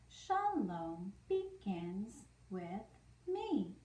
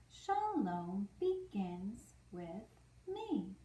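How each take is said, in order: The two takes are said the same way.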